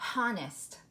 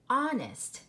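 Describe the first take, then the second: First: The word begins with a sounded H. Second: The word begins with a silent H. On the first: The speaker calls it wrong. "that isn't a word that we know of" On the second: The speaker calls it right. "let's try it with the H silent"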